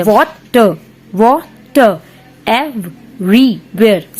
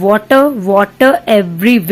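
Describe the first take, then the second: First: "Water, water everywhere" slowly broken into seven separate syllables; teacher tapping out "Water, water everywhere" beat by beat; counting out syllables. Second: Said in the usual way. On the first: Shown as a demonstration. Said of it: "seven syllables हो गए". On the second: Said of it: "ये देखो इसमें seven syllables हैं".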